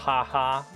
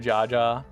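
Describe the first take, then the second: First: Each syllable starts with an H sound. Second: Each syllable starts with a J sound.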